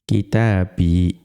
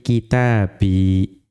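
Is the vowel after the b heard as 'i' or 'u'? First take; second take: i; i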